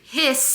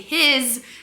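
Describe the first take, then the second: First: The word ends with a hissing s sound. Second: The word ends with a buzzing z sound. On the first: The speaker calls it wrong. "you don't say hiss" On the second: The speaker calls it right. "the S is saying its second sound, which is a Z sound"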